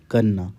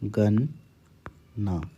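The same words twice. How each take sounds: First: Said in the usual way. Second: गन्ना drawn out very slowly and softly; stretched गन्ना; slow dictation. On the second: Shown as a demonstration. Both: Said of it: "अगला शब्द है गन्ना".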